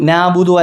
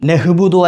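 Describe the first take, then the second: First: The first vowel is simply lengthened, with no throat sound. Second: A breathy h sound follows the first vowel. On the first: "നാബുദു അല്ല" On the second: "നഹ്ബുദു അല്ല"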